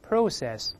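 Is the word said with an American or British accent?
British. It is said with a British accent. "英式发音是，我们大声读一遍"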